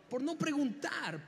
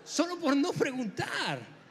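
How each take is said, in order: First: Said in the usual way. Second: Frase dicha entre risas; riendo. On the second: Real, not acted. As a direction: remata el chiste riéndose. (el predicador remata su chiste riendo)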